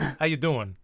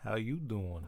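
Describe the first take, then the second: First: The voice is gruff, like a tough guy. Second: The voice is drawn out, like flirting. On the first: It is how a mobster greets someone. "That's mobster" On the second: It is a flirtatious pickup line. "Joey from Friends goes"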